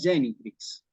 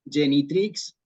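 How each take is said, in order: First: The stress falls on the first syllable. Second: The stress falls on a later syllable. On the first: The speaker calls it right. "aparece la tilde sobre la primera E ... La palabra es Genitrix" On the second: The speaker calls it wrong. "Para que no digamos Genitrix"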